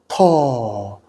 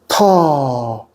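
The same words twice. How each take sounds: Both takes have the same delivery.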